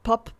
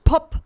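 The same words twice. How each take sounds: First: The p sound is clean without an air thump. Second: The p sound thumps with a burst of air. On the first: The speaker calls it right. "If you put them in front of it and I say pop, ... it will sound good" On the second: The speaker calls it wrong. "it will not sound as great"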